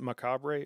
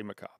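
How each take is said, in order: First: Macabre with the final E sounded as an extra syllable; E pronounced. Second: Macabre with no sounded E at the end; silent E. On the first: Streamer asking viewers how to say a set's name, E pronounced in macabre. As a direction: say macabre as "muh-KAH-bray". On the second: Streamer offering viewers the other way to say it, silent E in macabre. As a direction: say macabre as "muh-KAHB", final E dropped. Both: Shown as a demonstration. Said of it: "Do you pronounce the E on this?".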